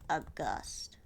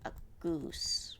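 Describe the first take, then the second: First: The main vowel is a short 'uh' sound. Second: The main vowel is a long 'oo' sound. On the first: This is how it is said in English. "for the English it's like a gust" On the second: This is how others are saying it. "they're saying it like this"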